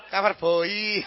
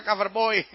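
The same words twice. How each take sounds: First: Mock Javanese accent, heavy breathy B in "boy". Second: Said in the usual way. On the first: Preacher showing how Javanese people say it, mock Javanese accent. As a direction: say "Cover boy" with a thick, drawn-out Javanese B. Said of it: "Orang Jawa kan nggak bisa bilang cover boy". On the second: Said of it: "nggak bisa bilang cover boy".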